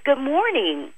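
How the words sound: The greeting sounds upright, prepared and warm. The business seems attentive and welcoming. The speaker calls it right. "when you sit up straight, you prepare your voice"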